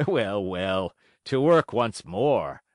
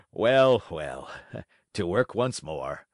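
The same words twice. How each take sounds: First: Put-on old carpenter, slow resolve. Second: Shaky brave resolve. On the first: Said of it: "laughing and scratching his wig". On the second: A narrator's reading. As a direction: fake courage fading. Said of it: "trying bravely to laugh".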